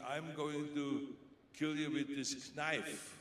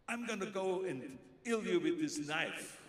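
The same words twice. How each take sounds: First: "knife" said with a hard k, slow and menacing; sounded K in knife. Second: Loud, high, slow "knife" as nife; silent k, hammed. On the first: Retold or imitated. Actor in an action scene threatens with a k-nife. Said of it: "I'm doing this scene, this action scene". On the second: Retake for the director, hammed up. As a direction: overdo the line, "knife" with no k. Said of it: "Action, Arnold".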